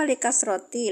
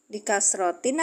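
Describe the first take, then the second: First: "likasroti" left open on a final i; "likasroti" ending in a bare -ti, ready to join the next word; ending without tanwin. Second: "Likasrotin" closed with a final n sound; "Likasrotin" with the nunation heard at the end; tanwin ending. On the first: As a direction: say "likasroti" with no n at the end. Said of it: "Kan bisa idofa ke junudihi, bukan". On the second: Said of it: "Kenapa likasrotin? Kan bisa idofa". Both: Shown as a demonstration.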